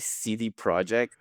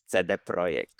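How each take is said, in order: First: The name is pronounced the English way. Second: The name is pronounced the Polish way. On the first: This is the company's own usage in English. "I think they say" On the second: This is the speaker's own habitual usage. "but for me it's"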